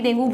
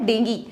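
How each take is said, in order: First: The word ends with an 'oo' sound. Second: The word ends with an 'ee' sound. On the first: "डेंगू को वैसे normally डेंगू बोलते हैं" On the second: "English में इसका correct pronunciation डेंगी है। Okay, यू silent है"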